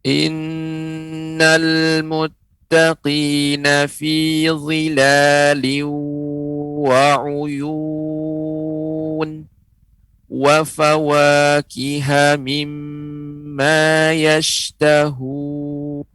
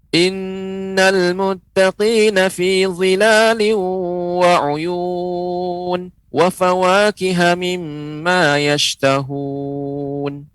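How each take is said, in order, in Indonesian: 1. Bacaannya dibaca pelan dan hati-hati. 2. Bacaannya dibaca cepat. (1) "Bacaan lambat atau tahqiq" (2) "Bacanya dengan cepat"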